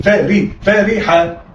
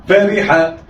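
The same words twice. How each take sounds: First: فا ري، فا ريحة read slowly, split into its syllables فا and ري; teacher sounding out a word for pupils. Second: Said in the usual way. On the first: Shown as a demonstration.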